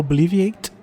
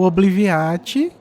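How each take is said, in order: First: The word is pronounced with English sounds. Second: The word is pronounced with Portuguese sounds.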